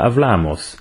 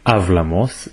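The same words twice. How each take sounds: First: The stress is on the second-to-last syllable. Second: The stress is not on the second-to-last syllable. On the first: The speaker calls it right. "אלא" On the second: The speaker calls it wrong. "לא אומרים"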